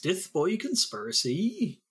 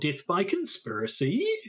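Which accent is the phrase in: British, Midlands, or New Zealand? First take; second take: Midlands; New Zealand. First: It is said in an English Midlands accent. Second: It is said in a New Zealand accent. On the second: "that's a very New Zealand way of saying death by conspiracy"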